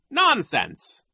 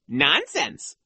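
First: High, scornful dismissal; dismissive vice principal. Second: High, mildly mocking echo; repulsive retort. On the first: Vice principal rejects the children's claim, dismissive. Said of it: "Nero said". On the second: Boy imagines mimicking the vice principal, mock repulsive. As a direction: throw it back with raised pitch. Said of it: "in Nero's own repulsive way". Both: A narrator's reading.

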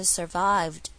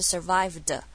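First: "survived" ending in a very short d; "survived", drawn out, then a tiny d; short final d. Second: "survived" with an extra "duh" on the end; wrong-way "survived", ending in a heavy "-duh"; overdone final d. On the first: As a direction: clip just the final d of "survived", no vowel after it. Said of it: "很短的一个的的声音在后面而已". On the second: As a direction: add a full vowel after the d of "survived". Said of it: "注意它不是survived". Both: Shown as a demonstration.

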